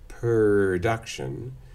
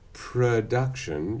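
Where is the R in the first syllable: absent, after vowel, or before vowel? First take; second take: after vowel; before vowel. First: The R comes after the first vowel. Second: The R comes before the first vowel. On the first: "you might say production" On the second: "instead of production"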